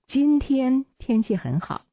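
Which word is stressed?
今天. The word 今天 is stressed. The focus is on which day it is. "这是重点在今天"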